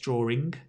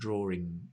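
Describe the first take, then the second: First: The word ends with an audible hard g sound. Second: The word ends with a plain ng sound. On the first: The speaker is from Manchester. "If you're from Manchester in England, it's drawing, drawing with a G" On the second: The speaker is not from Manchester. "But if you're not, it's drawing with that sound"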